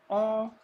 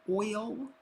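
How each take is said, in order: First: It is said in a Southern drawl, like all. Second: It is said in a standard accent, like oil.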